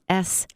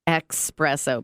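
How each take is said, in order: First: The word begins with an 'es' sound. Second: The word begins with an 'ex' sound. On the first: The speaker calls it right. "It's espresso with an S" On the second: The speaker calls it wrong. "we think of it as like espresso, but it's not"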